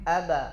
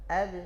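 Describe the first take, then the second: First: The b bounce leans toward an a vowel. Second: The b bounces with no vowel after it. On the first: The speaker calls it wrong. "Tidak kita katakan condong kepada fathah" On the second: The speaker calls it right. "Diarahkan ke bawah"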